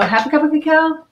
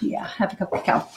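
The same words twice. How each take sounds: First: Half a cup of cacao? asked with a sharp rising, higher pitch; unsure, checking the amount aloud; questioning rise. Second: Half a cup of cacao murmured softly, breathy and voiceless; quiet confirmation. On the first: Cook double-checking the cacao amount, rising question. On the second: Cook confirming the amount to herself, hushed. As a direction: settle it to yourself under your breath. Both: Real, not acted.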